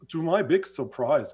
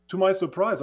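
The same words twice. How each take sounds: First: Said in the usual way. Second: "my" hit high and loud in "To my surprise"; surprise stressed. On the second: Real, not acted. Retelling his admission to the big school, stressing "my" with wonder. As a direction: lift "my" in "To my surprise" with real amazement.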